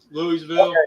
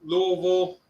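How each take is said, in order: First: "Louisville" as LOO-ee-vil; "Louisville" with a clear EE in the middle; spelled-out pronunciation. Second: "Louisville" as two syllables, LOO-vul; "Louisville" with the middle swallowed; local pronunciation. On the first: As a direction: sound out all three syllables of "Louisville". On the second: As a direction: slur "Louisville" down to LUH-vul. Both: Shown as a demonstration. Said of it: "Louisville or Louisville".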